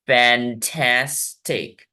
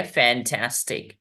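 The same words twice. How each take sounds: First: फैंटास्टिक very slow, fan - tas - tik with pauses; syllable by syllable. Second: Said in the usual way. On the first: Shown as a demonstration. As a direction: break फैंटास्टिक into three drawn-out beats. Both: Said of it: "तीन वेवल sounds होंगे".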